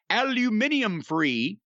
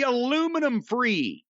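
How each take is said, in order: First: It is said the British way, aluminium. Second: It is said the American way, aluminum.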